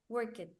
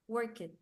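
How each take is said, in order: Both takes have the same delivery.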